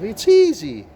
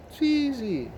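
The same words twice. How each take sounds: First: Much higher and louder, exasperated; fed-up outburst. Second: Very high but softer, scornful; fed-up sneer. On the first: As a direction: blurt it, having had enough. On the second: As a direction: toss it off high and dismissive. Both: Real, not acted. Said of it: "me swearing now, having enough".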